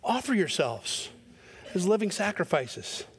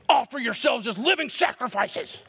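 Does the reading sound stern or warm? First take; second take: warm; stern. First: It is read in a warm, open tone. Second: It is read in a stern, harsh tone. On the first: God is a merciful one inviting gently. The speaker calls it right. "Let me read it with my eyebrows up" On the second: God is a harsh taskmaster making demands. The speaker calls it wrong. "is that your view of God?"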